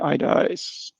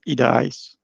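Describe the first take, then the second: First: The name is said with English pronunciation. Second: The name is said with non-English pronunciation. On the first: "the English version of it, which I'm more used to" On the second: "the correct pronunciation is"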